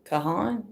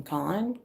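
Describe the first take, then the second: First: Kahan in two syllables, kuh-HAHN, with a questioning rise. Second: Kahan said as one syllable, KAHN, with a questioning rise. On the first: Reader guessing a singer's name, testing Kahan as kuh-HAHN. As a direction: try Kahan as kuh-HAHN, still unsure. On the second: Reader unsure of a singer's name, testing [name] as KAHN. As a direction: try Kahan short, like KAHN?. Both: Shown as a demonstration. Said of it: "I think that's how you say".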